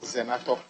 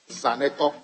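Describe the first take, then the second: First: The name is said as Zenato. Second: The name is said as Zaneto. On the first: The speaker calls it wrong. "not Zenato" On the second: The speaker calls it right. "pronounce properly"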